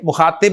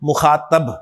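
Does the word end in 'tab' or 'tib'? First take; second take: tib; tab. First: The last syllable has an i vowel. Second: The last syllable has an a vowel. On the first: The speaker calls it wrong. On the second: The speaker calls it right.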